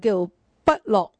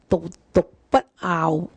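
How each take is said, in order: First: The second syllable is pronounced lok. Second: The second syllable is pronounced ngaau. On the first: It means not delighting in something. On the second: It means not yearning for something. "有人会读呢个字咧，读不傲"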